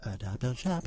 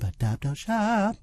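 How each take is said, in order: First: Softly repeating "Adopt, don't shop" as a slogan, much softer; quiet echo. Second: "adopt, don't shop" repeated much higher and slower; high sing-song slogan. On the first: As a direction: murmur "Adopt, don't shop" back like a chant. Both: Real, not acted. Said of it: "echoing the slogan".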